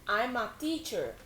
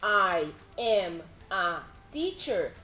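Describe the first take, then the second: First: The first words are linked into one. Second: The first words are said separately.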